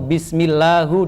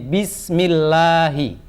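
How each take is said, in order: First: The word ends with a 'u' vowel. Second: The word ends with an 'i' vowel. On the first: The speaker calls it wrong. "Nggak boleh" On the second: The speaker calls it right. "kata Allah dibaca hi"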